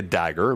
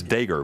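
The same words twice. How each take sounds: First: "dagger" with a short a, as in "bag"; short flat-a vowel in "dagger"; correct pronunciation. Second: "dagger" said as DAY-ger; long "ay" in the first syllable of "dagger"; Rory's pronunciation. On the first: Shown as a demonstration. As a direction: say "dagger" the standard way, DAG-er. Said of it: "a fun pronunciation difference". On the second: Retold or imitated. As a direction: make "dagger" start like "day". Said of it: "but Rory says dagger".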